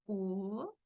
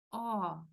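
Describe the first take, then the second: First: O as in Spanish, closed and rounded. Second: O opened wide, like "aw". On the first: Teacher shows learners the difference, closed O. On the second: Teacher shows learners the difference, open O. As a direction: say O with throat and mouth more open. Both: Shown as a demonstration. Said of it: "Vean la diferencia".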